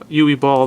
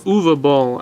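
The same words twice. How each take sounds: First: The name is said in an English way. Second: The name is said in a German way. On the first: "to me it's Uwe Ball" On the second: "as he pronounces it"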